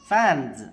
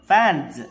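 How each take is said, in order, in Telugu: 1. ఈ పదం చివర బజ్జింగ్ z శబ్దం ఉంటుంది. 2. ఈ పదం చివర బజ్జింగ్ z శబ్దం ఉంటుంది.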